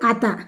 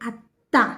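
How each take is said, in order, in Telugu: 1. t ధ్వని పొట్టిగా, ఒంటరిగా ఉంది. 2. t ధ్వని ఒత్తుగా ఉంది, నిలిపి పలకాలి. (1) "ఒత్తు తీసేయండి" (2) "ఒత్తు పెడితే అత్త"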